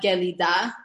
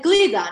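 First: A short vowel is heard after the g. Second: The g runs straight into l, no vowel. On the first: The speaker calls it wrong. "No one says gelida" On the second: The speaker calls it right. "they're going to say glida"

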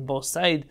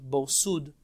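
First: The second word has an 'ai' vowel. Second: The second word has an 'oo' vowel. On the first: The speaker calls it wrong. "many of the books say Bor Sid or Bor Said, but really that's not correct" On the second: The speaker calls it right. "Many of the Rishonim already jump Bor Sud"

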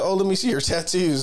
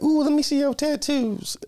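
First: It is said in the speaker's normal voice. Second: It is said in an imitation of her voice.

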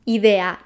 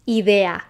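Both takes have the same delivery.

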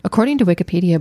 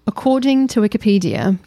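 First: It is read in a plain American accent. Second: It is read in a put-on British accent.

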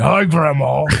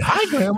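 First: It is said in a lower, bigger voice. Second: It is said in a higher, smaller voice. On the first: The speaker calls it wrong. "You don't say" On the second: The speaker calls it right. "you're smaller and you have a higher pitch"

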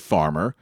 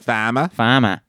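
First: It is said in a standard American accent. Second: It is said in a Boston accent. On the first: "We say farmer"

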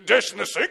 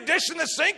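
First: The voice is pitched lower and deeper. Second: The voice is pitched fairly high. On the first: The speaker calls it right. "he spoke with a little deeper voice" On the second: The speaker calls it wrong. "I was giving him too high of a pitch"

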